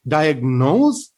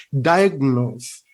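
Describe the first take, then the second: First: "diagnose" with "nose" wrongly stressed and rising. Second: "diagnose" stressed on "di", falling on "nose"; slow "diagnose", weight at the front; first-syllable stress. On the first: Teacher showing the rejected version, misplaced stress. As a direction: slowly push the weight onto "nose" in "diagnose". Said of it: "not the second one. We don't say". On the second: Teacher giving the corrected version, first-syllable stress. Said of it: "we have to state the first syllable". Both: Shown as a demonstration.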